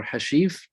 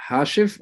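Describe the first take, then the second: First: Hashif with stress on the second syllable, long ee; Hashif, alternative reading. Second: Hashif with stress on the first syllable, short i; Hashif, first reading. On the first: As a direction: say Hashif as ha-SHEEF, questioning. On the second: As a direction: say Hashif as HASH-if. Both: Shown as a demonstration. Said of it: "How do you pronounce your name".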